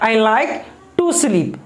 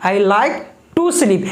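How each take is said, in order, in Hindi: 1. 'To sleep' एक साथ पढ़ा जाता है, 'like' के बाद विराम होता है। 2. 'To sleep' एक साथ पढ़ा जाता है, 'like' के बाद विराम होता है।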